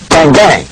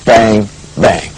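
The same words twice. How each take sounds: First: The two bangs come in a steady, moderate rhythm. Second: The two bangs are separated by a long gap. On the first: The speaker calls it right. "with this kind of a feel" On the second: The speaker calls it wrong. "not a very slow"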